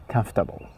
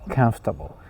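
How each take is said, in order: Both takes have the same delivery.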